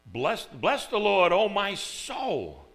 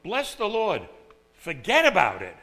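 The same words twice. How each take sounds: First: Slow, loud and reverent; formal King James delivery; solemn verse reading. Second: Quick, loud, casual punchline; emphatic everyday slang; modern-day paraphrase. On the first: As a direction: stretch out "Bless the Lord" with awe. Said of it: "it's kinda like saying". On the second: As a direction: toss off "forget about it" like street talk. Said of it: "It's like". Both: Retold or imitated.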